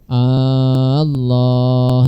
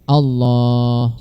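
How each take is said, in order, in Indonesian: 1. Vokal pertama dibaca panjang. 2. Vokal pertama dibaca pendek. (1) "Kalau dipanjangkan hamzahnya Allah" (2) "Tapi Allah"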